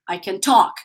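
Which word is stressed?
talk. The stress falls on the verb. The speaker calls it right.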